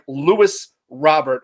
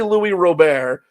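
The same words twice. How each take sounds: First: The name is said with an Americanized pronunciation. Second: The name is said with its original pronunciation. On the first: This is the pronunciation that later became official. The speaker calls it wrong. "it got changed by fucking Americans not knowing how to pronounce shit" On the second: This is how the name was first pronounced. The speaker calls it right. "when it was clearly"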